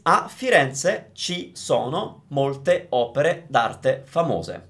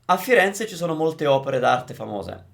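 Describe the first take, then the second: First: Each word is pronounced separately and carefully. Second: The words run together at natural speed. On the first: The speaker calls it wrong. "that was me pronouncing each individual word" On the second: The speaker calls it right. "natural speed"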